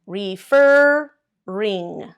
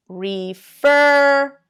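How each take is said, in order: First: "refer-ring" said very slowly, stress on FER; correct doubled R. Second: "refer-ing" said slowly and loudly, without doubling the R; wrong stress. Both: Shown as a demonstration. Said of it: "This is the way you're saying it".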